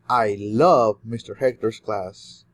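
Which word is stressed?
love. The word love carries the main stress. The feeling is love rather than another emotion. "you love a lot of things about mister Hector, and you do love more than other emotions"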